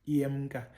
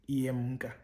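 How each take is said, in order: The two takes are said the same way.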